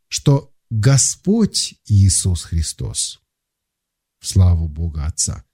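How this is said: There is a pause after 'Господь'. It declares that Jesus Christ is Lord.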